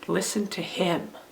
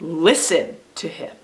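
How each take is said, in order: First: The stress falls on the word 'him'. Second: The stress falls on the word 'listen'. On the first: "what about if we stress the last word, the third word?" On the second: "Here's when we stress the first word"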